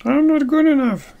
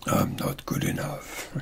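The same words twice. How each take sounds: First: High, squeaky little voice; higher pitch. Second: Low, hushed, near-whispered voice; low pitch voice. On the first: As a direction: pitch it way up, playfully. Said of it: "say it with a higher pitch". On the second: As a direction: drop it down low and quiet. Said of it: "with a low pitch voice". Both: Shown as a demonstration.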